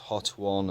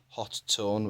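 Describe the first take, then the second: First: The name sounds like 'hot one', one t. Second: The name sounds like 'hot tone', two t's. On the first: "Some call it Hot One" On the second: "which is apparently the correct one but makes the least sense"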